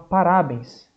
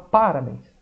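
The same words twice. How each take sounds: First: The stress is on the middle syllable. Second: The stress is on the first syllable. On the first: "tem uns que vão falar, professor, é o rá" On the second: "uns vão falar que é o pá"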